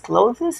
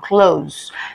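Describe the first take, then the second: First: The word ends with a 'th' sound. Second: The word ends with a 'z' sound. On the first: The speaker calls it wrong. "O T H eu vou usar the, this, clothes. Não" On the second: The speaker calls it right. "essa pronúncia é como se fosse um Z no final"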